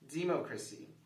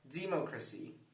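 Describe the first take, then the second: First: The stress is on the first syllable. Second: The stress is on the first syllable.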